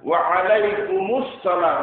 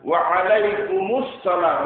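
First: A linking 'mus' syllable comes before 'salam'. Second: The same.

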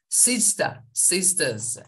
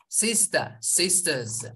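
No difference in how they are said.

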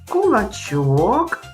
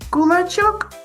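First: It is said at a slower, ordinary pace. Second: It is said at a quicker pace.

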